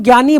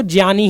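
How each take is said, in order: First: ज्ञानी said as "gyani"; hard g plus y at the start of ज्ञानी; common mispronunciation. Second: ज्ञानी said as "jyani"; j plus y glide at the start of ज्ञानी; corrected pronunciation. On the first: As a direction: say ज्ञानी with "gya". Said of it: "हम लोग गलत बोलते हैं". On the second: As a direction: say ज्ञानी with "jya". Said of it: "हम उसको ज्ञानी ही बोलेंगे". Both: Shown as a demonstration.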